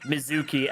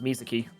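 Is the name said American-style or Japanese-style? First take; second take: American-style; Japanese-style. First: It is said with an American pronunciation. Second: It is said with a Japanese pronunciation. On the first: This is how Americans say it. The speaker calls it wrong. "Americans say" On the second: This is how it is said in Japanese. The speaker calls it right. "in Japanese it's actually pronounced"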